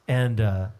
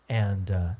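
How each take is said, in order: No difference in how they are said.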